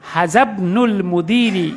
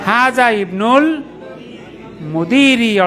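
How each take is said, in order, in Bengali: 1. শব্দ দুটো একসাথে মিলিয়ে বলা হয়। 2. শব্দ দুটো আলাদা করে বলা হয়।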